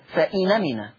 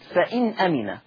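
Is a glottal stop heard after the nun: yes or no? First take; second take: no; yes. First: The glottal stop is dropped; the nun takes its vowel. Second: The nun is silent, followed by a glottal stop. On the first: "تحذف الهمزة ثم تنقل حركة الهمزة وهي الفتح إلى النون" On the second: "لاحظوا معي أدي النون ساكنة"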